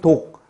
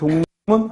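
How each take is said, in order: First: Each syllable is said separately, without nasal changes. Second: It is said smoothly, with nasal 'dongnimmun' sounds. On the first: The speaker calls it wrong. "표기에 있는 독, 립, 문 하고 표기를 옮기는 게 아니라" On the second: The speaker calls it right. "발음을 독립문 하고 이 발음을 옮기는 거죠"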